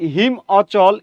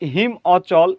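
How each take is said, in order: No difference in how they are said.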